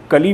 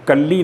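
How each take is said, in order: First: कली with one short l, "ka-lee"; no held L in कली; single L. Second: कल्ली with a held double l, "kal-lee"; doubled L. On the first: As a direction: say कली like the Hindi word for bud. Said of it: "उसे हम कली पढ़ते हैं". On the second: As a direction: lengthen the L in कल्ली. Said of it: "कल्ली नहीं पढ़ते". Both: Shown as a demonstration.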